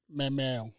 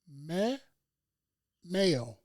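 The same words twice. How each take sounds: First: The words are said quickly and run together. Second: The words are said slowly and separated. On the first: The speaker calls it right. "You got to say it faster" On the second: The speaker calls it wrong. "You said that too separated"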